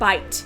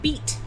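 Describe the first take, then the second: First: The vowel is said like 'eye'. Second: The vowel is said like 'ee'. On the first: This is the modern pronunciation. "the word bite" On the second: This is the old pronunciation. "it once was correct to pronounce that word beat"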